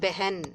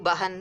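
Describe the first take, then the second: First: The first vowel sounds like e. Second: The first vowel sounds like a. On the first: "நம்ம வாசிக்கிறது உச்சரிக்கிறது பெஹன் அப்படிங்கணும்" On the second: "எழுதும்போது பஹன் எழுதணும்"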